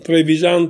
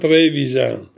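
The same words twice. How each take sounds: First: The stress is on the last syllable. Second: The stress is on the first syllable. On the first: "pronunciato con l'accento dell'ultima sillaba" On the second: "Adesso invece cambia pronuncia"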